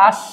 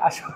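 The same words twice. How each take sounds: First: "আস" stopped dead at the end; hasanta stop. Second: "আসো" let out with a final o; open vowel ending. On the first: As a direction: say "আস" closed, no final vowel. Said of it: "হসন্ত দিব না আর কি". ("আস"-এ হসন্ত দিয়ে থামা) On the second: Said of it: "সুন্দর করে বলবো". ("আসো" সুন্দর করে, শেষে ও-কার) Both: Shown as a demonstration.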